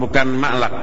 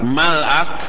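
First: The l is followed directly by a vowel. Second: The l closes the syllable with no vowel. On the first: The speaker calls it wrong. "afwan, bukan ma'lak" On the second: The speaker calls it right. "mal akun lamnya disukun"

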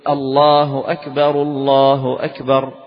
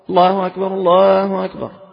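First: It is said slowly and loudly. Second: It is said quickly without drawing it out. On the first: The speaker calls it right. "فيسن في الأذان أن يرفع الصوت به ويبطأ" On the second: The speaker calls it wrong. "ما تقول"

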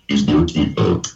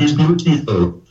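First: The voice is fairly low-pitched. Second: The voice is much higher-pitched. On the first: The speaker calls it wrong. "todavía tienes que poner la voz mucho más fina" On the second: The speaker calls it right. "Por ahí"

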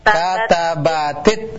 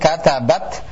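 First: The word ends with an added short i vowel. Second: The word ends on a bare t sound. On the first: The word links to the next word. "yang sukun yang kita hidupkan jadi kasrah" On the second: The word is said on its own, not linked. "kalau taknya kita matikan"

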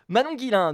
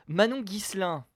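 First: The surname is said like Guilin. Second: The surname is said like Guislain. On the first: The speaker calls it right. "cette fois, c'est réussi" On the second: The speaker calls it wrong. "Non, toujours pas"

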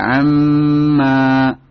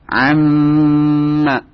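First: The vowel before the m is stretched long. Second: The vowel is short and the m is held long. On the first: The speaker calls it wrong. "tidak amma" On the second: The speaker calls it right. "Pendek maknya, cuma yang panjang tasdidnya saja"

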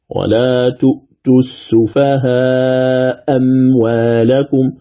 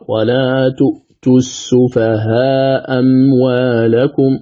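First: The vowel before the dropped hamza is lengthened. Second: The vowel before the dropped hamza is short. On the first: "وله وجه آخر المد" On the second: "بإسقاط الهمزة الأولى"

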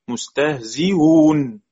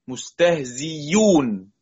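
First: The hamza is softened between hamza and vowel. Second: The hamza is replaced by a clear y sound. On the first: "مستهزئون بتسهيل بين" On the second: "أو إبدالها ياء، مستهزيون ياء مضمومة"

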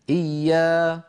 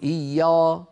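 First: The long vowel is thin and light. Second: The long vowel is thick and heavy. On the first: The speaker calls it right. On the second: The speaker calls it wrong.

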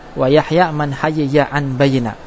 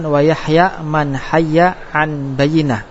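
First: The two ya sounds are pronounced separately, not merged. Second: The two ya sounds are merged into one doubled sound. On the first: This is an alternative, less common reading. "fakul idgham, yaitu membuka idgham" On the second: This is the majority reading. "syaitnya hayya idgham. Bacaan jumhur dengan man idgham antara dua ya"

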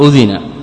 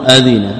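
First: The first vowel is 'u', as in udhina. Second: The first vowel is 'a', as in adhina. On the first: The permission is stated without naming who gave it. "بضمه على البناء للمفعول" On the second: The one who gave permission is named as the actor. "بفتح الهمزة"

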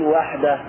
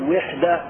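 First: The first vowel is an 'a' sound. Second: The first vowel is a 'u' sound. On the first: The speaker calls it right. "بل قل وحدة ... بفتح الواو" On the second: The speaker calls it wrong. "ولا تقل وحدة"

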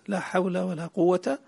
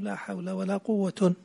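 First: The last word ends in a short a. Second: The last word ends in un. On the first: "الفتح" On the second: "والرفع"

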